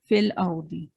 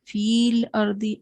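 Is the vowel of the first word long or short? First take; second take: short; long. First: The first vowel is short, joined straight to l. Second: The first vowel is held long before the l. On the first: The speaker calls it right. "फ़ा ज़ेर फ़ी को ये लाम साकिन से मिलाते हैं" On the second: The speaker calls it wrong. "ऐसे तो नहीं पढ़ते हम"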